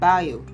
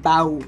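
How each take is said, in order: First: It has two separate vowel sounds, I then O. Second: It has a single vowel sound, like bow. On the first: The speaker calls it right. "to pronounce this word correctly, you have to say I-O" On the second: The speaker calls it wrong. "You aren't to say bow"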